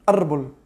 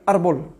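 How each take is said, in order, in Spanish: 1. La primera vocal se acorta a la mitad de duración. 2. La primera vocal se acorta a la mitad de duración.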